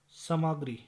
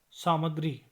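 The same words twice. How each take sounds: The two takes are said the same way.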